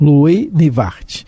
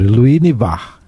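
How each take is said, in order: First: The final T of the name is pronounced. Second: The final T of the name is silent. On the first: The speaker calls it wrong. "Meu francês é fraco" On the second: The speaker calls it right. "Então não fala"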